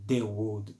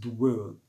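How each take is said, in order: First: The vowel of 'the' is clearly pronounced. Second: The vowel of 'the' is dropped. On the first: The speaker calls it wrong. "Não tem the world" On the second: The speaker calls it right. "você não pronuncia a letra E"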